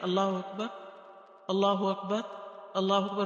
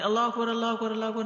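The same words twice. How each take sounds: First: The phrases are separated by short pauses. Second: The phrases are run together without pauses.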